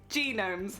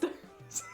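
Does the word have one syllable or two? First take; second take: two; one. First: The word is said with two syllables. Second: The word is said with one syllable. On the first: The speaker calls it wrong. "I used to call them genomes" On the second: The speaker calls it right. "They're not genomes, they're just gnomes"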